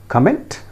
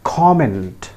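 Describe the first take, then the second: First: "Comment" stressed on the end, kuh-MENT, rising; wrong comment. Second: "comment" said KOM-ent, stress on the first syllable; correct comment. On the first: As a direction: put the weight on -ment in "Comment". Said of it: "Many of us pronounce it in that way". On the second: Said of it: "pronounced as". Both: Shown as a demonstration.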